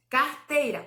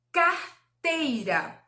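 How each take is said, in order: First: Said in the usual way. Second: "carteira" slowly, broken as car / teira; slow syllable split. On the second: Shown as a demonstration. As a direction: stretch out "carteira" with a clear gap after car. ("carteira" bem devagar, separando as sílabas) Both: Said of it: "É pronunciar devagar".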